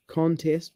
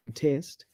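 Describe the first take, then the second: First: CONTEST stressed on CON, as a noun; weight on CON in CONTEST; first-syllable stress. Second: CONTEST stressed on TEST, as a verb; light CON, heavy TEST in CONTEST; second-syllable stress. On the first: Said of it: "stress is on the first syllable". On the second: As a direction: say CONTEST as cun-TEST, softly. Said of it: "stress the second syllable". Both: Shown as a demonstration.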